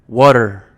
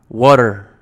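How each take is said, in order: Both takes have the same delivery.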